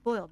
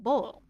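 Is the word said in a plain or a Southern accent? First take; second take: plain; Southern. First: It is said with a plain, general pronunciation. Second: It is said with a Southern American pronunciation. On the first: "not just boil" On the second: "a southern boil, you know, pronounced like that"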